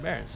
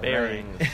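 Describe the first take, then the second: First: The word is pronounced loosely and unclearly. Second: The word is pronounced clearly and carefully. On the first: The speaker calls it wrong. "You can't just be like" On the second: The speaker calls it right. "you have to be so, like, articulate when you say it"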